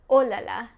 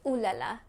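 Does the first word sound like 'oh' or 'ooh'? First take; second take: oh; ooh. First: The first word has an open 'oh' vowel. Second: The first word has a rounded 'ooh' vowel. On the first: The speaker calls it right. "but they actually say oh la la" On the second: The speaker calls it wrong. "a lot of people outside of France think that French people say ooh la la"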